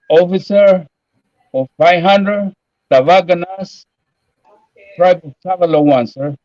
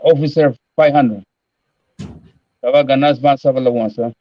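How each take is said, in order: First: It is said slowly with pauses between parts. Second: It is said at a normal, quicker pace.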